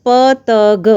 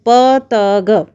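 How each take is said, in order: Both takes have the same delivery.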